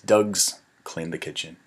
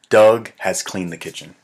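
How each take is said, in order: First: The word has is squeezed into Doug's. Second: The word has is said in full.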